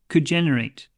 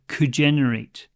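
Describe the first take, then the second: First: The D in 'could' is nearly dropped. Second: The same.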